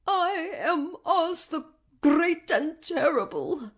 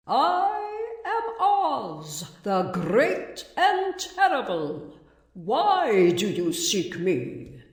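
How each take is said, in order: First: Put-on high, slow, quavering little old man; trembling. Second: Grand, drawn-out proclamation in a high, put-on voice; mighty disembodied Oz. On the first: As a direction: draw it out timidly, trying to sound grand. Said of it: "said the man in a trembling voice". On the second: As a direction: intone it slowly as an all-powerful wizard. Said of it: "and it said". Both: A narrator's reading.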